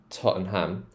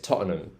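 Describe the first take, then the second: First: The last syllable is a full 'ham'. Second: The last syllable is a weak 'um'. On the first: The speaker calls it wrong. "they actually pronounce the ham" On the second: The speaker calls it right. "it's like an um sound at the end there"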